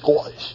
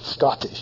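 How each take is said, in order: First: The middle consonant is a glottal stop. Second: The middle consonant is a clear t sound. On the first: "he has a glottal stop" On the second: "instead of saying a T"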